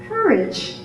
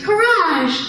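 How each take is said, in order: First: "Courage" said the English way, KUR-ij; English pronunciation. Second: "Courage" said the French way, koo-RAHZH; French pronunciation. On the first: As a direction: say "Courage" in English, soft J ending. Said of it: "they were yelling out". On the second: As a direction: say "Courage" in French, stressed on the second syllable, higher. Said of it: "But in French". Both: Shown as a demonstration.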